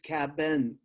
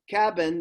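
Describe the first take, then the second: First: The word is said to sound out every letter. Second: The word is said in its ordinary everyday way.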